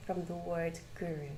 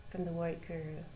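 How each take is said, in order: Both takes have the same delivery.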